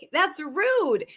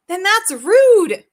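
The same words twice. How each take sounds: First: Said in the usual way. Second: Then that's RUDE, rude punched loud and slow; dragged-out, louder "rude" in honest outrage; indignant emphasis. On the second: Real, not acted. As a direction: lean hard on "rude" with real indignation. Indignant about deciding for clients.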